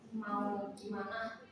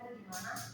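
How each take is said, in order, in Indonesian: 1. Vokal a diucapkan sepenuhnya. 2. Vokal a dihilangkan.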